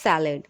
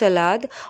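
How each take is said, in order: First: It is said with English pronunciation. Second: It is said with Hindi pronunciation. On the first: "English में जब हम pronounce करते हैं तब होता है सैलड" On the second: "Hindi में होता है सलाद"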